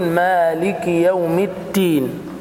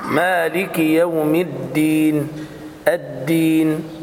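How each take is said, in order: First: Slow مالك يوم الدين with الدين said as "itin"; dal close to ta. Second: Slow مالك يوم الدين with the dal of الدين fully voiced; clear voiced dal. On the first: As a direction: demonstrate dal turned to ta. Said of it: "فيقولون". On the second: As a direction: correct dal in الدين, drawn slowly. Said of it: "هكذا". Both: Shown as a demonstration.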